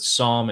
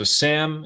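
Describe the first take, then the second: First: The name is pronounced the Farsi way. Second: The name is pronounced the English way. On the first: "in Farsi" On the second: "in English"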